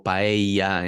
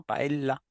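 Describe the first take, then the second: First: "paella" slow, the ll softened to an i; mock learner saying "paella". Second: "Paella" with a small break before the end, as a French learner says it. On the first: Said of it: "o paella". (paella pronunciada con una i) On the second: Retold or imitated. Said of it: "con una pequeña pausa". (paella con acento francés)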